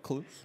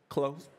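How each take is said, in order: First: The vowel sounds like the one in 'loose'. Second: The vowel sounds like the one in 'close'. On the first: The speaker calls it wrong. "that's not right" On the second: The speaker calls it right. "give me the right pronunciation"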